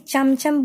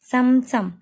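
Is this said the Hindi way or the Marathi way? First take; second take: Hindi; Marathi. First: It is pronounced the way Hindi says it. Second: It is pronounced the way Marathi says it. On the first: "Hindi में चमचम बोलते हैं ना हम" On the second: "Marathi में इसका pronunciation होगा"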